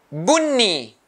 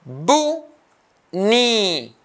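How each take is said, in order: First: Said in the usual way. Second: "bunni" split into bu and ni, pause between; two isolated beats for "bunni", first one high; syllable by syllable. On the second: Shown as a demonstration. Teacher cutting the word into two, syllable by syllable. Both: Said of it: "two syllables".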